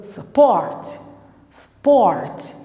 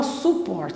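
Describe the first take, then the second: First: "support" with the U reduced to a weak "uh"; schwa pronunciation. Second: "support" with a full "oo" in the first syllable; wrong full-U pronunciation. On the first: Teacher showing what you do say, schwa in "support". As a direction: barely voice the first vowel of "support", weight on "port". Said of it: "você fala su-, uh". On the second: Teacher showing what you don't say, full-U "support". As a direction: say "support" with a clear U, "soo-port". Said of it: "Você não fala support". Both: Shown as a demonstration.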